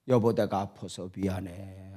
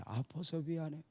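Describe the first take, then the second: First: Soft, lower, tender apology; sorrowful apology. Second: Much softer, dying away; fading apology. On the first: Sick wife apologizing to her husband, soft and sorrowful. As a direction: apologize gently, heart aching. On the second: Sick wife repeats her apology, fading into near silence. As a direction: let the apology fade to almost nothing. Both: Retold or imitated.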